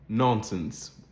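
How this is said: The first vowel is a rounded British vowel. "in a typical transatlantic accent, or at least in British English"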